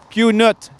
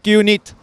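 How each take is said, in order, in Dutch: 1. Het tweede deel wordt uitgesproken als 'nut'. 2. Het tweede deel wordt uitgesproken als 'niet'. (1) "Maar Q Nut" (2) "niet Q Niet"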